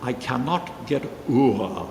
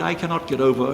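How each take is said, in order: First: "o'er" said as one syllable, like "or"; one-syllable "o'er" in place of over; old poetic o'er. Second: "over" said in full, two syllables; "over" given both syllables. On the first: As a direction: clip "o'er" to a single syllable, slowly. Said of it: "one word coming up in the first line". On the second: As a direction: spell out "over" as two beats to show it doesn't fit. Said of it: "it just doesn't work". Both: Shown as a demonstration.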